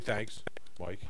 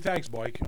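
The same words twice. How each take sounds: First: 'Thanks' stops clearly before 'Mike' begins. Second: 'Thanks' runs straight into 'Mike' without stopping. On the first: The speaker calls it wrong. "I don't say" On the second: The speaker calls it right. "If I say"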